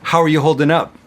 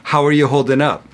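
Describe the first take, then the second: No difference in how they are said.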